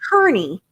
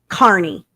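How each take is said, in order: First: The first syllable sounds like 'keer'. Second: The first syllable sounds like 'car'. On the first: The speaker calls it wrong. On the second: The speaker calls it right. "I dadgum sure know it is [name]"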